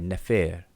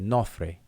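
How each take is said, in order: First: It is pronounced Nefer, with an e sound. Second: It is pronounced Nofre, with an o sound. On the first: This is the usual modern reading. "We say Nefer" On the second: This is the Coptic pronunciation. "a Coptic speaker will say Nofre"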